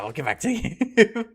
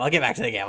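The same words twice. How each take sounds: First: Fast, breaking into a laugh on the last word; can't finish for giggling. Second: Said in the usual way. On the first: Real, not acted. Repeating while giggling.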